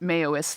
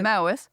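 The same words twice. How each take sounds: First: The first syllable sounds like 'mayo'. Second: The first syllable rhymes with 'cow'. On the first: The speaker calls it wrong. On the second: The speaker calls it right.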